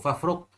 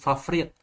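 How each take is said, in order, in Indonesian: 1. Vokal sebelum konsonan terakhir adalah u. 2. Vokal sebelum konsonan terakhir adalah i. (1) "faraqa yafruku. Fafruq" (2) "Dibaca secara syad dari bab daraba yadribu"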